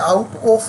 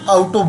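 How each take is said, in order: First: Out and of are said as two full words. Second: Out and of are blended into one word.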